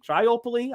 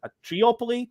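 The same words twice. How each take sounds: First: "Triopoly" said with "try" at the start; high, questioning "Triopoly", first syllable like "try"; try-opoly pronunciation. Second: "triopoly" said with "tree" at the start; high, questioning "triopoly", first syllable like "tree"; tree-opoly pronunciation. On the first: Host guessing the word for three, "Triopoly" as try-opoly. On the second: Host guessing the word for three, "triopoly" as tree-opoly. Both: Shown as a demonstration.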